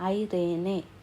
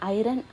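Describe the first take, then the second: First: The word is said with three syllables. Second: The word is said with two syllables. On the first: "ఐరేనే correct pronunciation" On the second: "కొంతమంది దాన్ని ఐరన్ అని కూడా పిలుస్తారు"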